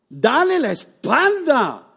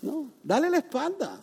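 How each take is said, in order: First: "Dale la espalda" slow, louder and higher, every word weighted; emphatic command. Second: "dale la espalda" softer, gently insisted; softer reminder. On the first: Preacher urges the congregation, slow emphatic "Dale la espalda". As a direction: drive home "Dale la espalda" slowly. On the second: Preacher repeats the advice to the congregation, quieter and gentle. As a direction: ease off into a soft "dale la espalda". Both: Shown as a demonstration. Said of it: "Eso es lo que yo llamo resistir".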